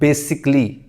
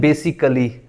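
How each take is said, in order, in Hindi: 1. a को छोड़ दिया जाता है, तो तीन अक्षर बनते हैं। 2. a को बोला जाता है, तो चार अक्षर बनते हैं। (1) "इस ए को खत्म करेंगे तो क्या बनेगा" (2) "इसको लोग पढ़ते हैं बेसिकली, बेसिकली नहीं होता"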